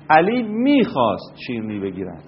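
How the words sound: The stress falls on the word میخواست. He wanted to before but no longer does. "این تکیه رو ببرید روی میخواست"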